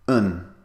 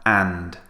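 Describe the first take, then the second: First: The word is a short vowel with no final d. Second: The word is said fully, with a clear final d. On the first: "We cut the word down to a very short sound" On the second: "I'm pronouncing it very clearly now"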